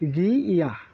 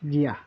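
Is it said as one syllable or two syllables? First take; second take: two syllables; one syllable. First: It is said as two separate syllables. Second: It is said as one merged syllable. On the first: The speaker calls it wrong. "হওয়ার কথা ছিল" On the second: The speaker calls it right. "হয়ে যাবে"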